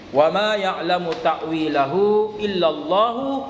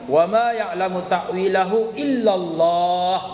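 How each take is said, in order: First: The recitation runs on past Allah without stopping. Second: The recitation stops right after the word Allah. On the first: God and the deeply learned scholars know its interpretation. "dengan memindahkan wakaf dari Allah ke beberapa kata sebelumnya" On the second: Only God knows its interpretation.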